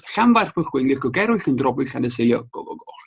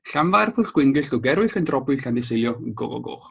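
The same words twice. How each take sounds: First: Rolled Welsh town name with throaty ll sounds; Welsh place name. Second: Slow, syllable-by-syllable "Llanfairpwllgwyngyll"; slow Welsh place name. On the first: Coach showing viewers the long Welsh station name, carefully pronounced. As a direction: say "Llanfairpwllgwyngyll" with Welsh ll and ch. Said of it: "And it goes". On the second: Coach inviting webinar viewers to repeat after him, slow and clear. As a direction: spell out "Llanfairpwllgwyngyll" slowly for learners to copy. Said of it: "Feel free to repeat after me". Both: Shown as a demonstration.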